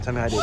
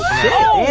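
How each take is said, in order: First: Said in the usual way. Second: High, loud squealed question; excited squeal. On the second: Real, not acted. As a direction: squeal it out eagerly. Offering popcorn, asked twice.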